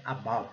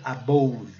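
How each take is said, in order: First: Softer "above" as a-BUV, short uh; correct pronunciation. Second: Slow "above" as a-BOUV with an O; mistaken pronunciation. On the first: Teacher corrects the error, soft correct pronunciation. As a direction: keep "above" short and low, no O. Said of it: "mas não é". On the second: Teacher shows a common error, mistaken pronunciation. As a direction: say "above" by the spelling rule, long O. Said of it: "Se a gente seguir pela regra". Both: Shown as a demonstration.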